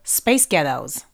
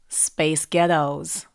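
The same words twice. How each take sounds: First: It is said at a quicker pace. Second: It is said at a slower pace.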